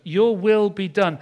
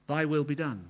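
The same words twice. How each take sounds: First: Your hit hard, louder and slowed; stress on Your. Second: Said in the usual way. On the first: Shown as a demonstration. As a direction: lean on Your, slowly. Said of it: "you're coming first". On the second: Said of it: "we say in the Lord's Prayer".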